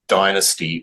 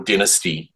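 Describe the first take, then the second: First: The word is said in a non-Australian way. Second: The word is said in an Australian way.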